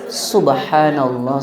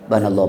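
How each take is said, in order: First: It is said slowly with every syllable clear. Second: It is said fast with the start clipped.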